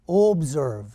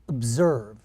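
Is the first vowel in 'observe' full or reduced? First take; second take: full; reduced. First: The first vowel is pronounced fully and clearly. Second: The first vowel is reduced to a weak uh. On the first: The speaker calls it wrong. "pronounce these letters very fully" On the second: The speaker calls it right. "the letter O is reduced altogether or very weak"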